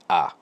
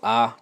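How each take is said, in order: First: The vowel is cut short. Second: The vowel is held long. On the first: "but shorten it" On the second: "say that"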